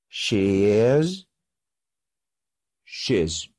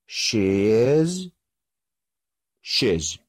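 The two takes are said the same way.

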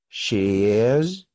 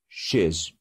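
First: It is said as two full words. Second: It is said as one contracted syllable.

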